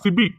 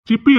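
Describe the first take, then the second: First: The middle b sound is single and short. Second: The middle p sound is doubled and long. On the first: The speaker calls it right. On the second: The speaker calls it wrong.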